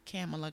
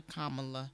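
First: Kamala as KAM-uh-luh; first pronunciation. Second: Kamala as KAH-muh-luh; alternative pronunciation. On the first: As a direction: open Kamala with the a of "camp". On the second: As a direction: open Kamala with the a of "calm". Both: Shown as a demonstration. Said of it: "is it Kamala or Kamala".

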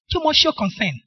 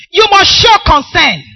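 First: Said in the usual way. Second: Slow, loud: show concern; preacher drives the point home; stressed call. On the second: Shown as a demonstration. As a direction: hammer you must show concern slowly and loudly.

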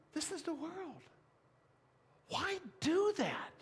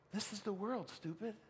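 First: Mock chiding voice. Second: Softer, hushed inner voice; a hint of a chiding inner voice; soft mock voice. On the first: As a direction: raise the pitch in mock disbelief. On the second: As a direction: murmur it like a gentle rebuke. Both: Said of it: "the voice that says".

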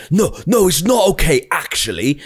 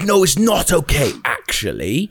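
First: High mock shout of outrage; retold woman telling him off, in a hammed-up high yell; mock furious woman. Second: Higher, sing-song retelling of her outrage; the neighbour's protest replayed as a half-sung parody; mock indignant woman. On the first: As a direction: play the neighbour losing it, pitched up. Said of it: "She's fucking losing it". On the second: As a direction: repeat her line in a lilting mock tone. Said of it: "she was like".

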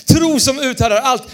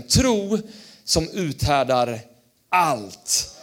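First: "Tro" punched, title said louder and higher; loud sermon title. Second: Title spoken slowly, falling on "allt"; slow sermon title. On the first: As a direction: announce the heading with energy. ("Tro som uthärdar allt" högt och starkt) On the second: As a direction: lay down the heading word by word. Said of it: "skriv ner rubriken". ("Tro som uthärdar allt" långsamt och fallande) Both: Shown as a demonstration.

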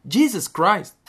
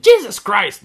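First: A high, raised "Jesus Christ." exclamation; exclaiming Jesus Christ. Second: A loud high exclamation of "Jesus Christ!"; exclaiming Jesus Christ. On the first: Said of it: "Em vez de, tipo". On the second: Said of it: "não dizem". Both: Shown as a demonstration.

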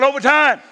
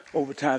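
First: Shouted. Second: Low, much softer, almost to himself; quiet take. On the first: Pastor leads the congregation in shouting it back. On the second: Pastor murmurs it before telling the church to shout. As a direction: say it softly first. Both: Shown as a demonstration.

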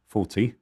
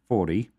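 First: Said in the usual way. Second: Forty in an American accent. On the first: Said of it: "I don't know why I said it". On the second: Real, not acted. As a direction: slip into American pronunciation on "forty". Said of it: "said it with an American accent".

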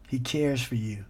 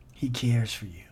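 First: Said in the usual way. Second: Whisper. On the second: Real, not acted. Tender repeated reassurance.

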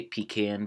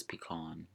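First: "pecan" said pee-CAN, with the a of "can"; default pee-CAN. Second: "pecan" said pee-KAHN, with an ah; family's pee-KAHN. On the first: Shown as a demonstration. Podcaster giving own default, "pecan" as pee-CAN. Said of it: "I think by default I say pecan". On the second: Retold or imitated. Podcaster quoting a bougie relative, "pecan" as pee-KAHN. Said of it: "someone in my family says pecan".

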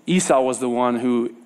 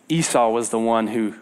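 The two takes are said the same way.

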